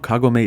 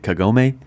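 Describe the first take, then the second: First: The name is said the Japanese way. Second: The name is said the anglicized way. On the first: The speaker calls it right. "I know Kagome is correct" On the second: The speaker calls it wrong. "growing up with Y T V and a quarter century of memes, it's hard not to pronounce it Kagome"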